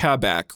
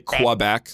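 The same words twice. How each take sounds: First: The word begins with a plain k sound. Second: The word begins with a kw sound. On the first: This is the proper way of saying it. "But it's pronounced Quebec, right?" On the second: This is the common American way of saying it. "in America, people just say Quebec, like Q-W-E-B-E-C"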